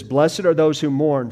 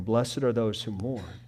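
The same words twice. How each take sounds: First: Louder, proclaimed; emphatic quote. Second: Said in the usual way. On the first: Shown as a demonstration. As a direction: declare it to the room.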